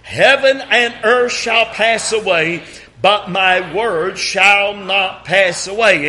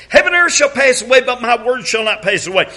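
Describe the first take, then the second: First: Slow, measured scripture reading, in step with the congregation; unhurried congregational recitation; slow group reading. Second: Brisk, raised solo recitation; fast solo reading. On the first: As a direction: read it aloud slowly together. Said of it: "read it with me". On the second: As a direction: rattle off the verse fast. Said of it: "allow me right here". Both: Shown as a demonstration.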